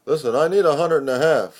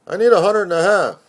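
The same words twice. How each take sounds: First: A touch higher and louder, fast; lightly voiced pushy friend, quick; voiced friend asking for money. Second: Higher and much louder, fast and pushy; insistent demand. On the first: Friend asks narrator for money. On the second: Acted. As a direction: hammer the demand home, urgent. Friend repeats demand for money.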